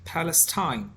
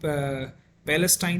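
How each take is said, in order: First: It is said with an American pronunciation. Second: It is said with a non-American pronunciation. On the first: "ये American accent है" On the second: "वो पैलेस्टाइन नहीं कहते"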